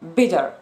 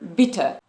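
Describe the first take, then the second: First: The middle consonant is a soft D-like tap. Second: The middle consonant is a crisp, clear T. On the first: "In American English" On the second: "in Great Britain would say bitter"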